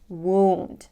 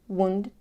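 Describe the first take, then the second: First: The vowel sound is stretched out long. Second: The vowel sound is clipped short. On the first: The speaker calls it right. "Make it a little longer" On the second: The speaker calls it wrong. "Don't make the sound short"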